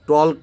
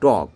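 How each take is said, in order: First: An L sound is pronounced before the final K. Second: No L sound is pronounced before the final K. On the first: The speaker calls it wrong. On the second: The speaker calls it right.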